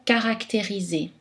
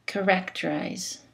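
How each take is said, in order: First: Caractériser with every a said as a full A, syllables equal; French even syllables. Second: Characterize said in English, stress on the first syllable and reduced vowels; English pronunciation. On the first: Teacher models the French word, no reduced vowels. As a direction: keep each syllable of caractériser even and unreduced. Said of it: "Tous les A sont prononcés A". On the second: Teacher gives the English counterpart, English vowels. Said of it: "En anglais ... peuvent changer de prononciation". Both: Shown as a demonstration.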